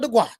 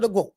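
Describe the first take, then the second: First: The word's vowel sounds like the one in 'twat'. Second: The word's vowel sounds unlike the one in 'twat'. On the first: The speaker calls it wrong. "the gwat sound more like twat" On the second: The speaker calls it right. "instead of the GWOAT"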